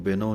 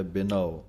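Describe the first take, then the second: First: ਬਿਨਉ said the careless way, as the wrong example; wrong pronunciation. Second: ਬਿਨਉ with a clear final u sound; correct pronunciation. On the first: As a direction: say ਬਿਨਉ as it should not be said. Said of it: "ਇਹਨੂੰ ਬਿਨਉ ਨਹੀਂ ਕਹਿਣਾ". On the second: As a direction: end ਬਿਨਉ on the aunkar vowel. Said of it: "ਊੜੇ ਔਂਕੜ ਦੀ ਆਵਾਜ਼ ਦੇਣੀ ਹੈ". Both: Shown as a demonstration.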